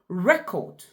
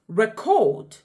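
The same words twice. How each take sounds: First: It is stressed as the noun form. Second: It is stressed as the verb form. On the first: It names a thing. "which is a noun" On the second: It names an action. "which is a verb doing the action"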